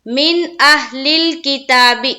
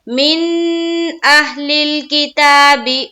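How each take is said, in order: First: The n sound in 'min' is released quickly. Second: The n sound in 'min' is held long. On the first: The speaker calls it right. "यहाँ देर नहीं करना है, जल्द अदा करेंगे।" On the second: The speaker calls it wrong. "अगर कोई कर दे मिन अहलिल किताबी, गलत।"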